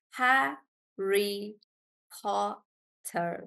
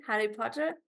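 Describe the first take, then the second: First: "Harry Potter" slowly as Ha-rry Po-tter, with gaps; syllable by syllable. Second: Said in the usual way. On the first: Shown as a demonstration. Teacher checking Nandini's example, syllable by syllable. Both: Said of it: "we break the word into syllables".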